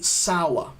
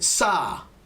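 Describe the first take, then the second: First: The vowel sounds like 'hour'. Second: The vowel does not sound like 'hour'. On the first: The speaker calls it right. "We say sour. Kind of like hour" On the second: The speaker calls it wrong. "Many people say sa, sa. Be careful with the pronunciation"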